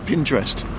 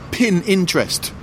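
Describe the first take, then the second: First: It sounds like 'pinter' followed by 'est'. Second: It sounds like 'pin' followed by 'interest'. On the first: "instead of Pinterest" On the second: "people who say pin interest"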